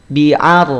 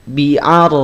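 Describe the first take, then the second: The two takes are said the same way.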